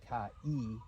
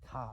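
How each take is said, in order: First: The two vowels are said as separate syllables. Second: The two vowels merge into one gliding syllable. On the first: The speaker calls it wrong. "what we know so far might lead us to believe that this is pronounced ka-e, but it isn't" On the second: The speaker calls it right. "These two vowels come together and they're pronounced as I"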